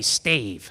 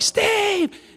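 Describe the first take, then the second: First: The name is called at normal loudness. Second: The name is shouted at full volume.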